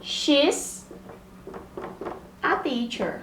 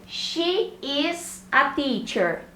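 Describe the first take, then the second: First: She's a teacher with She's as one syllable; short contracted She's; contraction. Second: Slow She is a teacher, She is as two words; careful full She is; full form. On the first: Teacher shows She's as the contracted option. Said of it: "eu posso usar". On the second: Teacher contrasts She is with the contraction. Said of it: "ao invés de eu contar". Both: Shown as a demonstration.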